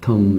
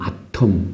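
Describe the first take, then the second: First: It is said with an American accent. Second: It is said with a British accent. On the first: "미국식 발음으로는" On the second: "우리 영국식 발음으로는"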